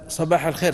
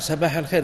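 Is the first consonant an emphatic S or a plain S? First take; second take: emphatic; plain. First: It begins with an emphatic, heavy S sound. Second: It begins with a plain, light S sound. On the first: This is the intended phrase. "وإذا قال صباح الخير" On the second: "ينطقها سين"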